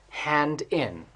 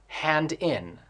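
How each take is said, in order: No difference in how they are said.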